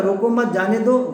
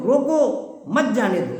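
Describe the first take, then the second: First: روکو مت جانے دو run on without a long break; group روکو مت, then جانے دو; quick, connected "روکو مت جانے دو"; let-them-go phrasing. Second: روکو drawn out slowly, then مت جانے دو; slow "روکو", falling "مت جانے دو"; stress on روکو. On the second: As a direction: hit روکو as a command, break, then مت جانے دو. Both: Shown as a demonstration. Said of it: "دو الگ الگ معنی".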